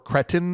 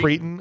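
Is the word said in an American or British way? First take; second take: British; American. First: The word is said with a British pronunciation. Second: The word is said with an American pronunciation.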